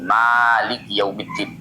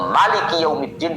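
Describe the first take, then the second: First: The first vowel of maliki is drawn out long. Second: The first vowel of maliki is kept short. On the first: The reading counts one hundred fifty-six letters. "kelawan netepake alif lafat maliki" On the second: The reading counts one hundred fifty-five letters. "seratus lima puluh lima"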